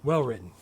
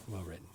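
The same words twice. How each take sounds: First: Said in the usual way. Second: Much softer, lower murmur; whisper. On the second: Real, not acted. Repeating praise of the script, murmured softly. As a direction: say it again under the breath.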